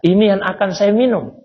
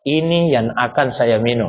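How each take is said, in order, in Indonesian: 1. Itu diucapkan dengan intonasi bertanya. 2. Itu diucapkan dengan intonasi pernyataan. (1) "kalau pakai tanya Pak nadanya" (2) "kalau saya tidak pakai nada tanya"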